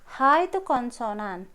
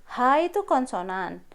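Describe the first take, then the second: The two takes are said the same way.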